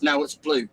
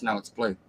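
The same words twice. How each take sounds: First: Said in the usual way. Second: "No, it's blue." lower and softer, flat-out stubborn; deadpan stubborn. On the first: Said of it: "the donkey that eats the grass says". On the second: Acted. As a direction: stare him down and say it low. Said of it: "just looks him in the face and says".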